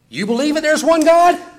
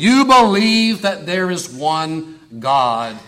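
First: The voice rises at the end like a question. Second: The voice falls at the end like a statement. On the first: The speaker is asking whether the listener believes. The speaker calls it wrong. "it's not a question. James doesn't say" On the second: The speaker is stating what the listener believes. The speaker calls it right. "It's a declaration"

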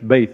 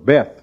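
First: It is said with a Hebrew pronunciation. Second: It is said with an English pronunciation. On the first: "but it's Beth in the Hebrew" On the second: "or Beth, you would say it"

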